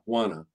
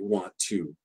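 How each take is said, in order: First: The words blend, with no T and a schwa. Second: Both words are said fully, with a clear T. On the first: "We'll just get rid of the T too and just keep the schwa" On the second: "really rare for native speakers to be talking to each other and to say want to"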